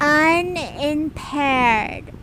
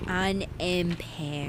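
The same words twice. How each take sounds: First: Unimpaired said slowly and firmly with a falling tune; a clear slow corrective Unimpaired; slow firm correction. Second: Unimpaired said slowly and softly with a rising questioning tune; slow quiet questioning. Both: Shown as a demonstration.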